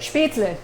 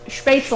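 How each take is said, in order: First: The word ends with a 'leh' sound. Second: The word ends with an 'el' sound. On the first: The speaker calls it right. "say it the correct way" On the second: The speaker calls it wrong. "People say sh- spätzle"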